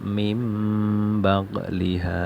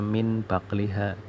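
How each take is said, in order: First: An m sound comes before the b. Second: An n sound comes before the b. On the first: The speaker calls it right. "harus dibaca mim baqliha" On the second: The speaker calls it wrong. "tidak boleh dibaca min baqliha"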